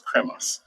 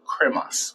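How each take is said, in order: First: "cremas" repeated in a soft unvoiced whisper. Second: Said in the usual way. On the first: Shown as a demonstration. Repeating the drink's name to the host, whispered. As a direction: breathe "cremas" again under the breath. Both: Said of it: "So we call it cremas".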